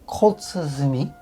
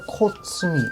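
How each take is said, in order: First: The word is said carefully and delicately. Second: The word is said quickly and loosely. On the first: The speaker calls it right. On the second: The speaker calls it wrong.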